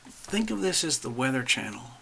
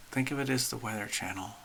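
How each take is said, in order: First: Said in the usual way. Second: A quick murmured echo; softer quick aside. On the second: Real, not acted. Host repeating her analogy to viewers, softer and quicker. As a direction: repeat it softer and faster, tossed off.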